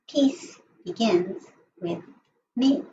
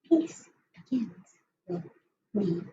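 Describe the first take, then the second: First: It is said at a normal, louder volume. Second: It is said in a lower, softer voice.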